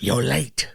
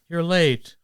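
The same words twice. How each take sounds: First: The line is delivered with expressive, varied pitch. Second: The line is delivered flat and monotone.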